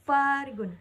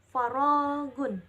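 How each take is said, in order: First: The stress is on the first syllable. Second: The stress is on the second syllable. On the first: It means unemployment. "tekanan pada kata pada huruf fa" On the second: It means empty space. "tekanan pada huruf ro"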